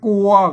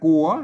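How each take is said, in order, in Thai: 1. พยางค์นี้ออกเสียงเป็นเสียงสามัญ 2. พยางค์นี้ออกเสียงเป็นเสียงจัตวา (1) "อ่านเสียงสามัญไปแล้ว" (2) "ใส่ไม่จัตวาว่าเนี่ยกัว"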